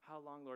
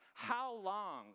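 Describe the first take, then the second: First: It is said gently and politely. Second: It is yelled loudly and angrily.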